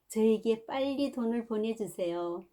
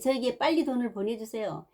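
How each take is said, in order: First: It is read in a soft, pleading, tender voice. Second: It is read in an irritable, unpleasant voice. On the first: The son seems to ask politely, like a gentleman. "부드럽고 애절한 목소리로 마치 기도하듯 탄원하는 목소리로" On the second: The son seems rude and disrespectful. "불쾌하고 성마른 소리로 읽었습니다"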